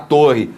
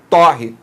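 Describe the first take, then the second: First: The first vowel is a closed o. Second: The first vowel is an open o. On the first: It is the noun meaning a tower. "Aqui esse ó, ele é fechado" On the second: It is the verb meaning to toast. "como se houvesse aqui ó, um agudo"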